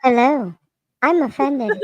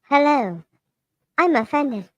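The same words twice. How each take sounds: First: Robot voice. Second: Flat monotone robot voice. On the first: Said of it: "the flatline voice like that". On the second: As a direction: read it like a machine. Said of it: "I think I did it". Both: Shown as a demonstration.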